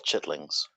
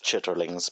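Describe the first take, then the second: First: "chitlings" squeezed to two syllables, chit-lings; real pronunciation. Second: "chitterlings" with all three syllables, chit-ter-lings; spelling pronunciation. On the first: Correcting the mod, saying "chitlings" as it is really said. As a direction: say "chitlings" the way people actually say it. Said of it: "it's actually called chitlings". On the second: Correcting the mod on the dish's name, saying "chitterlings" as spelt. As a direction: read "chitterlings" as spelt, each syllable sounded. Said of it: "it's spelt chitterlings". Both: Shown as a demonstration.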